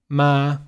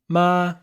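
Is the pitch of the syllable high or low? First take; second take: low; high. First: The syllable is said at a low pitch. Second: The syllable is said at a high pitch. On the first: "in Vietnamese with the neutral tone ... the neutral tone in Vietnamese is down here" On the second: "But in Chinese, it's ma, right? Like it's much higher pitched"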